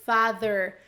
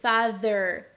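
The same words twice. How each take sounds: Both takes have the same delivery.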